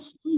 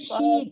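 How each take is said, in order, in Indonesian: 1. Konsonannya adalah bunyi s tebal. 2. Konsonannya adalah bunyi sh. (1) "tapi si ya" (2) "Jangan shi"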